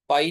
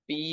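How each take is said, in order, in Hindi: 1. स्वर 'eye' ध्वनि है। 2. स्वर एक लंबी 'ee' ध्वनि है। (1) "पाई नहीं है" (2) "पी है"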